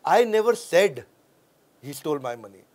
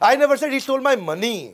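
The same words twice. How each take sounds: First: The word said is stressed. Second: The word money is stressed.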